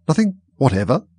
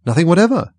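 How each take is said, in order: First: "Nothing whatever" as a raised question, rising at the end; persistent questioning. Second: "Nothing whatever" high and loud, as a statement; emphatic answer. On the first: King persisting with Alice, "Nothing whatever" questioning and rising. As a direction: press the question with a lift on "whatever". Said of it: "persisted the king". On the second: Alice answering the king, "Nothing whatever" loud, high, emphatic. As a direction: hit "whatever" high and firm. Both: A narrator's reading.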